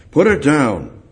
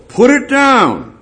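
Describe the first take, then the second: First: Said in the usual way. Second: "Put it down" high and loud, slowed and pressed; preacher crying out "Put it down"; impassioned plea. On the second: Acted. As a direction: hammer home "Put it down". Repeated plea, peak then calm.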